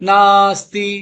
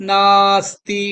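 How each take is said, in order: Both takes have the same delivery.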